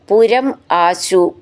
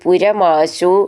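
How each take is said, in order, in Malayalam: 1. രണ്ട് വാക്കുകളും വേർതിരിച്ചാണ് പറയുന്നത്. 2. രണ്ട് വാക്കുകളും ഒന്നായി ചേർത്താണ് പറയുന്നത്.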